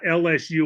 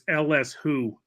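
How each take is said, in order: First: The final letter sounds like 'you'. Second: The final letter sounds like 'who'. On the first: The speaker calls it wrong. "you mispronounced them. It's not L S U" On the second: The speaker calls it right. "It's L S Who"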